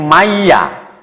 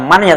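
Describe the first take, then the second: First: The n sound merges away into the y. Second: The n sound is kept before the y. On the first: The speaker calls it right. "tapi maya" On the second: The speaker calls it wrong. "bukan mannya"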